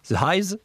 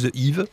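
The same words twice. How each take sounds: First: It is pronounced with English sounds. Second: It is pronounced with French sounds. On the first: "Je vais essayer de le prononcer à l'anglaise" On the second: "ou The Hives, si on est pas"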